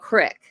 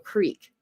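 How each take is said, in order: First: The vowel is short, like in 'sick'. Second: The vowel is long, like in 'seek'. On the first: This is how people in some regions say it. The speaker calls it wrong. "They'll call it a, cr- a, a crick instead of a creek" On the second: This is the usual way to say it. The speaker calls it right. "instead of a creek"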